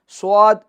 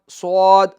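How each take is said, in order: Both takes have the same delivery.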